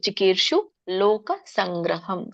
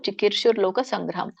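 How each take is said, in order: First: No r sound comes before 'loka'. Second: An r sound joins the first word to 'loka'. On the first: "ಅದು ಕೂಡಿ ಹೇಳಲಿಕ್ಕೆ ಬರ್ಲಿಲ್ಲ ಅಂದ್ರೆ ಚಿಕೀರ್ಷು ಲೋಕ ಸಂಗ್ರಹಂ ಅಂತ ಹೇಳ್ಬೋದು" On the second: "ಚಿಕೀರ್ಷುರ್ ಲೋಕ ಅನ್ನೋರಿದ್ರೆ ಅನ್ನಿ ಅಂದ್ರೆ ಒಳ್ಳೇದು"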